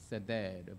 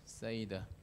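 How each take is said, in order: First: The word is said with a Hebrew pronunciation. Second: The word is said with an English pronunciation. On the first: "Hebrew, it could be seder" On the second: "But in English pronunciation, it's a seder"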